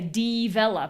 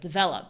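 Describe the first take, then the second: First: The first vowel is a full ee sound. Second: The first vowel is reduced and unstressed. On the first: The speaker calls it wrong. "People say develop" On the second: The speaker calls it right. "instead of develop"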